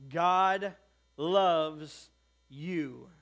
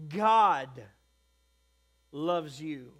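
First: "God loves you" spaced out word by word, GOD and LOVES both loud; weighty emphasis. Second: GOD punched loud and held, "loves you" dropping back; stress on GOD. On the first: Preacher telling the congregation God loves you, each word weighted. First take before shifted emphasis. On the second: Preacher re-emphasising who loves you, GOD stressed loudly. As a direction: hit GOD hard, pause, then let "loves you" fall. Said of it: "put a little bit different emphasis on it". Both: Shown as a demonstration.

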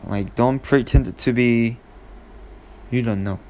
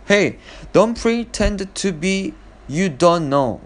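First: Said in the usual way. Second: Raised, pitched-up accusing tone, high on Hey don't; accusing call-out. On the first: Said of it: "we all know what I'm trying to say". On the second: Shown as a demonstration. Calling out a brother who ate the ice cream, accusing. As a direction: catch him out, pitched well up. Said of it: "the expression that I want to say is".

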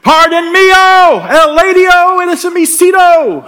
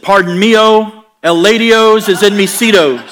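First: Much higher, much louder fake Spanish; ugly American shouting in Spanglish; louder mock Spanglish. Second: Loud, slow fake Spanish endings on English words; mock Spanglish. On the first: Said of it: "we just get louder". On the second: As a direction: ham up broken Spanglish, higher and louder. Bad Spanglish to flight attendant.

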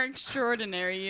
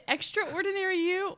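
First: "extraordinary" merged as "ek-STROR-dinary"; extraordinary run together. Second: "extraordinary" said as "extra ordinary"; extraordinary as two words. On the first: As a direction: drop the middle a in "extraordinary". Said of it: "or extraordinary". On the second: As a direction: sound both vowels in "extraordinary", extra-ordinary. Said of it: "is it extraordinary you or extraordinary". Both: Shown as a demonstration.

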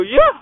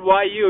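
First: Said in the usual way. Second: "Y U" said as two separate letters, wye you; spelled-out letters. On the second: Shown as a demonstration. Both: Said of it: "it's you".

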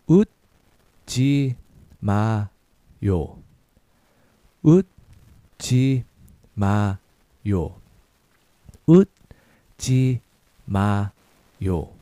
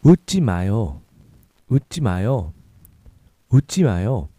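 First: Slow, 웃지 drawn out; slow syllable drill. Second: Quicker natural pace; a little faster. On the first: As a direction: model it slowly for repetition. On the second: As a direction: say it at near normal speed. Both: Shown as a demonstration. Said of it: "A little faster".

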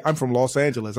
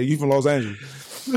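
First: "Los Angeles" in full, every syllable separate; co-host's careful pronunciation. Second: "Los Angeles" run together, ending swallowed as "Los Anjulez"; own slurred pronunciation. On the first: Podcaster imitating his co-host, over-enunciated "Los Angeles". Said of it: "you say, you say". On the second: Podcaster showing his own way, drawled "Los Angeles". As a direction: slur the end of "Los Angeles". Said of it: "I say". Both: Shown as a demonstration.

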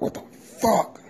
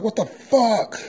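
First: High, sudden what the fuck; a high startled yelp of a curse; startled cuss. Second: Shocked cuss. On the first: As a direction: blurt it out, caught off guard. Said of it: "I'm like". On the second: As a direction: shout it out as the plate hits the floor. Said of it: "I was like". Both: Retold or imitated.

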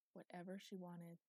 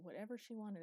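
First: Whatever she wanted, softer, with weight on Whatever; savoring echo. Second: Said in the usual way. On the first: A narrator's reading. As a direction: linger on Whatever, quietly relishing it. Echoed as her private thought.

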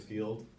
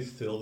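First: Said in the usual way. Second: "filled" with a short i; "filled" rhyming with "killed"; vowel shortened. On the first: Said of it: "filled instead of field". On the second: Shown as a demonstration. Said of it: "Do you say filled instead of field?".

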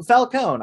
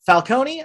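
First: Falcone said fal-KOHN; Falcone without final ee. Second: Falcone said fal-KOH-nee; Falcone with final ee. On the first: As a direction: Falcone in two syllables, rhyming with "cone". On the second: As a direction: give Falcone three syllables, ending "-nee". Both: Shown as a demonstration. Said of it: "figure out these pronunciations".

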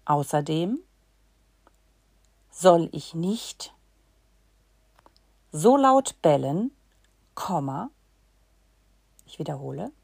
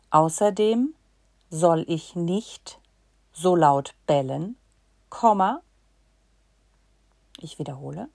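Both takes have the same delivery.

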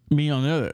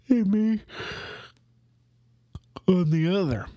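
First: Said in the usual way. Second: High yawn, trailing into breathy whisper; words swallowed by a big yawn. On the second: Real, not acted. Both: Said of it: "Again, I apologize".

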